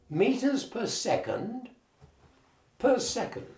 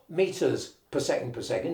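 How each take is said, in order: First: A pause comes before the last 'per second'. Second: The phrase runs on without a pause. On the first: The speaker calls it right. "pause before you say the next per second" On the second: The speaker calls it wrong. "It's not"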